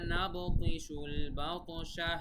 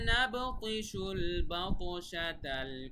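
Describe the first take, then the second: First: It stops after al-batsha, ending in a final h. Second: It runs straight on without stopping after al-batsha.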